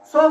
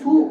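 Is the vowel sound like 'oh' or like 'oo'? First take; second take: oh; oo. First: The vowel sounds like 'oh'. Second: The vowel sounds like 'oo'. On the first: The speaker calls it right. "দেখেন তো এটা উ এর মতো হচ্ছে না" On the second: The speaker calls it wrong. "এটা কি আমরা সু হতেছি"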